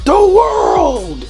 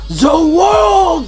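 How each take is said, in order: First: It is said with an English accent. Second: It is said with a Japanese accent. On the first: The speaker calls it wrong. "when in English it's like" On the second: The speaker calls it right. "he's saying it in a Japanese accent"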